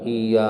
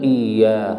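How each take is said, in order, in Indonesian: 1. Y yang digandakan ringan dan pendek. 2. Y yang digandakan ditekan dengan tegas dan ditahan. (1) "bukan iya" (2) "Yang benar iya"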